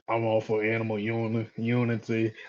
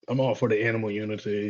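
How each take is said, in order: First: It is said in someone else's put-on voice. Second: It is said in the speaker's normal voice.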